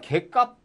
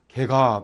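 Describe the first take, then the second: First: The second syllable starts with a tense consonant. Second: The second syllable starts with a plain consonant. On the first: The speaker calls it right. "소리가 개값 이렇게 나죠" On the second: The speaker calls it wrong. "개갑 이렇게 소리가 안 나죠"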